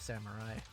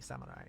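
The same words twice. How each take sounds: First: It is said with an English R sound. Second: It is said with a Japanese R sound. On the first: "the English pronunciation of samurai" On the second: "in Japanese it would be samurai"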